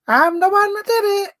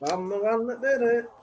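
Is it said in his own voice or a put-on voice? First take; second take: put-on voice; own voice. First: It is said in a put-on Melanie voice. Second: It is said in his own voice.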